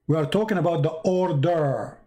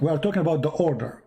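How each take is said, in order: First: Measured pace, "order" stretched long; emphatic repeat. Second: Said in the usual way. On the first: Real, not acted. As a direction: draw out "order" to drive it home. Repeats the point emphatically to Kevin.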